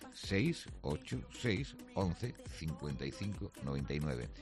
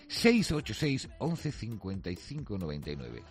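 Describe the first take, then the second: First: The number is read more slowly. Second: The number is read at normal speed.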